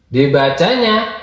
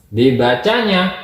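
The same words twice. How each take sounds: No difference in how they are said.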